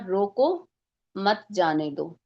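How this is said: There is a pause after रोको.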